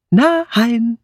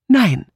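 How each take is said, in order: First: A firm, drawn-out Nein, higher and weighted; a firm no that settles the question; emphatic no. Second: Said in the usual way. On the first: Acted. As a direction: lean hard on Nein to end the matter. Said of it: "wiederholte Edmund mit Nachdruck".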